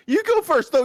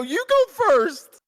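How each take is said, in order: First: Loud laughing. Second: Drawn out and loud, each word pressed; slow insistent repeat. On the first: Laughing urging friend to start. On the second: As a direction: stretch it out, insisting loudly. Repeats it slowly, louder. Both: Real, not acted.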